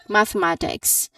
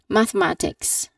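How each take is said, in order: Both takes have the same delivery.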